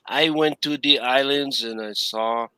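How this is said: It is said in an imitated older woman's voice. "I'm using my mom's voice"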